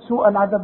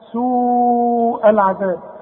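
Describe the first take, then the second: First: The vowel before the glottal stop is short. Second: The vowel before the glottal stop is drawn long. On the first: The speaker calls it wrong. "ما تقولش سوء" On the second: The speaker calls it right. "ده مد لا واجب، لازم تمد"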